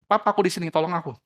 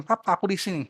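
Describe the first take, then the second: First: Put-on child calling for help. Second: Put-on child calling out. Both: A narrator's reading. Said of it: "Anaknya teriak".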